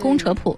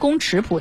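First: The middle syllable is pronounced che. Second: The middle syllable is pronounced chi. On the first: The speaker calls it right. "但实际上它念宫扯谱" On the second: The speaker calls it wrong. "特别也容易念错，念成宫尺谱"

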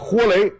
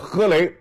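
First: The first syllable is pronounced 'huo'. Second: The first syllable is pronounced 'he'. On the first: This is the later, modern reading. "这个豁呢在这读第一声" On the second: This is the old Beijing reading. "但是老话不念豁啊，念喝啊"

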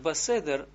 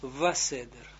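First: The word begins with a b sound. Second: The word begins with a w sound. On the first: The speaker calls it wrong. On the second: The speaker calls it right.

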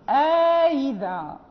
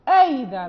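First: A long a separates the two glottal stops. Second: No long a separates the two glottal stops. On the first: "قالون فيدخل ألفا بين الهمزة المحققة والهمزة المسهلة" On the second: "ورش آيذا بدون إدخال"

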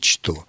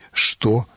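First: The word begins with a 'ch' sound. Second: The word begins with an 'sh' sound. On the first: The speaker calls it wrong. "а не «что»" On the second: The speaker calls it right. "Или «что»"

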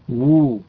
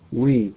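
First: The w is followed by a rounded u vowel. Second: The w is followed by an i-like vowel. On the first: The speaker calls it right. "وو وليست وي" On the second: The speaker calls it wrong. "البعض ينطق وي وي وليست وو"

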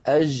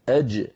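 First: The j sound is soft, with air flowing through. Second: The j sound is fully stopped, with no airflow. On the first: The speaker calls it wrong. "يعني لا نقول أج هذه رخوة" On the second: The speaker calls it right. "ومخرجه مقفول تماما. أج، اسمعوني جيدا"

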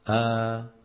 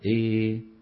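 First: The vowel is a fully open a. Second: The vowel is strongly fronted toward i. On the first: "منهم من يفتح الألفات" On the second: "ومنهم من يميلها إمالة كبرى"

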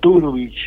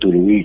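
First: The stress is on the first syllable. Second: The stress is on a later syllable. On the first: This is the original pronunciation. The speaker calls it right. "se pronuncia acentuando la primera sílaba" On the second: This is how people say it locally. The speaker calls it wrong. "acá dicen Turbich"

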